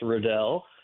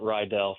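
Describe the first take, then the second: First: The first syllable sounds like 'rid'. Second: The first syllable sounds like 'ride'. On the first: This is how the family says the name. The speaker calls it right. "last name is pronounced Riddell" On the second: This is how other people often say the name. The speaker calls it wrong. "a lot of people would pronounce it Rydell"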